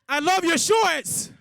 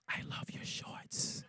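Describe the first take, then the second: First: It is said loudly and boldly. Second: It is said quietly, in a whisper.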